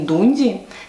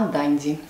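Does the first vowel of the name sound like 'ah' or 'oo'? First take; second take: oo; ah. First: The first vowel sounds like 'oo'. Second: The first vowel sounds like 'ah'. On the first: This is how Russians usually say it. The speaker calls it wrong. "Не Дунди, как все русские говорят" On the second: This is how the English say it. The speaker calls it right. "а Данди. Произношение проверено с англичанами"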